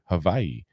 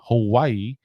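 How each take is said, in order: First: The middle consonant is a V sound. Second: The middle consonant is a W sound.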